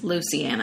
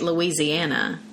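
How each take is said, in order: First: It is said in a Cajun accent, like loose. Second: It is said in a standard American accent.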